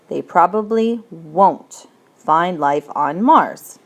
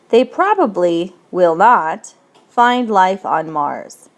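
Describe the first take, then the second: First: Will not is contracted into one syllable. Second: Will not is said as two full words.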